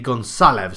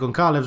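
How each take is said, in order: First: The middle consonant sounds like an s. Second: The middle consonant sounds like a k. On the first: The speaker calls it right. "It's how you'd pronounce an S" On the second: The speaker calls it wrong. "I'm saying Goncalves wrong"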